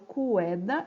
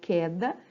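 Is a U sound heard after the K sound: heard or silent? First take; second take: heard; silent. First: A U sound follows the K sound. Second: No U sound follows the K sound. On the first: The speaker calls it wrong. "eu não falo cueda" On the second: The speaker calls it right. "eu falo queda. Então, eu não pronuncio U"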